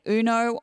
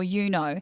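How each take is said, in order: First: The word begins with an 'oo' sound. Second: The word begins with a 'you' sound. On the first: "You either say uno" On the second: "or you know"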